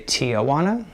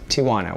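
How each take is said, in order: First: It is said Texas-style with an extra A sound. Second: It is said without the extra A sound.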